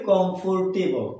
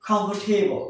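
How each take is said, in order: First: "কমফোর্টেবল" said as "kom-for-te-bol"; common mispronunciation. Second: "কমফোর্টেবল" said as "KUM-pf-tay-bl"; correct pronunciation. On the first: Teacher showing what we usually say, "কমফোর্টেবল" as kom-for-te-bol. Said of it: "কি বলি?". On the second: Teacher giving learners the proper form, "কমফোর্টেবল" as KUM-pf-tay-bl. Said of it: "এর উচ্চারণ হচ্ছে". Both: Shown as a demonstration.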